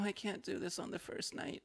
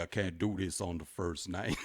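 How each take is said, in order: First: It is said in her ordinary voice. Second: It is said in a put-on male voice.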